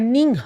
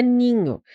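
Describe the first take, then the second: First: NINHO broken as "nin-hó" with an audible H; H pronunciado, errado. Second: NINHO with NH as one "ñ" sound, no H; pronúncia correta do NH. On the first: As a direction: split NINHO and breathe out the H. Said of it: "você não pronuncia o H". (NINHO errado, "nin-hó", com o H aspirado) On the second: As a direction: glide through NINHO as "ni-ño", H silent. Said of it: "Não. É ninho". (NINHO com o NH num som só, sem H) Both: Shown as a demonstration.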